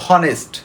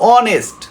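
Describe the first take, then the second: First: The word starts with an h sound. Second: The word starts with no h sound. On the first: The speaker calls it wrong. "Maximum student দেখা যায় পড়তে বসে বলে হনেস্ট, no" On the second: The speaker calls it right. "It will be অনেস্ট"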